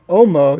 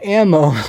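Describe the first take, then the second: First: The first vowel sounds like 'oh'. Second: The first vowel sounds like 'a' in cat. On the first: The speaker calls it wrong. "you don't say Omo" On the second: The speaker calls it right. "you say ammo"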